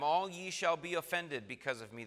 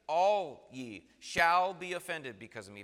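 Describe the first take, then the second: First: Said in the usual way. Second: ALL hit loud and set apart; emphatic restatement, loud weight on "All". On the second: Shown as a demonstration. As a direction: punch "All" hard, then stress "shall". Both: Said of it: "Very emphatic language".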